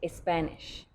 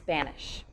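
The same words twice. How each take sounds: First: An eh vowel comes before the S. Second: The word starts directly with the S. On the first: The speaker calls it wrong. "We don't say Spanish" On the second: The speaker calls it right. "just Spanish. We start with the S sound"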